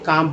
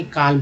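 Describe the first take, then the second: First: काम said as kaam with no l sound; silent l. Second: काल्म said with the l pronounced; the mistaken kalm reading; wrong, l sounded. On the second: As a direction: say काल्म with a clear l. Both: Shown as a demonstration. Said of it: "ना कि काल्म पढ़ते हैं".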